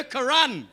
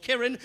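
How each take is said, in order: First: Karan with the second syllable leaned on; Karan, punched at the end; Geordie mispronunciation. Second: Kiran said as the Indian name; Kiran, plainly and correctly; original pronunciation. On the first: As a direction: say Karan as a Geordie would, ka-RAN. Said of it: "They just called her Karan". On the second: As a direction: say Kiran with an i in the first syllable. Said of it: "couldn't quite pronounce our ethnic sounding names". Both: Shown as a demonstration.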